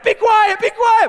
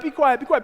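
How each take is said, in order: First: High, loud frantic yell; exasperated inner shout. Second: Urgent but held-back hushing; restrained pleading. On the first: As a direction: scream it as you wish you could. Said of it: "In my head, I'm like". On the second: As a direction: hold the yell in and beg instead. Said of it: "But I can't say that to him". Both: Acted.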